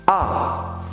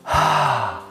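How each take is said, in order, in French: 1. La voyelle est forte et claire, avec peu d'air. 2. La voyelle est soufflée, avec beaucoup d'air audible. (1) "Dites un A assez fort. Refaisons-le ensemble" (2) "un A avec un H devant. Ça va faire ah. Voilà, c'est quelque chose de très soufflé"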